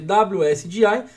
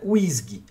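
First: It is spelled out letter by letter. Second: It is said as a single word. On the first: This is how it is written. "se escreve W S G I" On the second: This is how it is actually pronounced. "mas a pronúncia é W S G"

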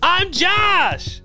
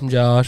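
First: It is said in a perky, upbeat tone. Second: It is said in a laid-back, casual tone.

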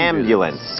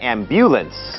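First: The stress is on the first syllable. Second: The stress is on a later syllable. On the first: The speaker calls it right. "ก็คือพยางค์แรก" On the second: The speaker calls it wrong. "ไม่ใช่"

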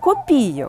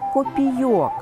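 First: The stress is on the second syllable. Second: The stress is on the last syllable. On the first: It refers to an amount or coin denomination. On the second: It refers to small metal coins in general.

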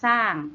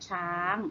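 First: The word begins with an s sound. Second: The word begins with a ch sound. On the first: This is the Isan dialect form. "ภาษาอีสานเรียกสร้าง" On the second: This is the Standard Thai form. "ภาษาไทยมาตรฐานเราเรียกช้างนะคะ"

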